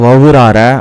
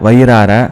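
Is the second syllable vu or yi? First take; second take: vu; yi. First: The second syllable is vu. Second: The second syllable is yi. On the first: The speaker calls it wrong. "வவுறு இதெல்லாம் வந்து தவறு" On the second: The speaker calls it right. "வயிறார அப்படிங்கிறது சரி"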